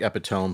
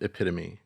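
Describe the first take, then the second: First: The word is read the way it is spelled. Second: The word is said unlike its spelling. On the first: The speaker calls it wrong. "it looks like epitome" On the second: The speaker calls it right. "but it's pronounced epitome"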